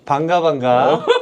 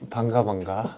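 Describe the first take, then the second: First: It is said with higher, livelier energy. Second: It is said with low energy and deep voice. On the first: "텐션 높여줘야 돼" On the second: "너 오늘 텐션 너무 낮아"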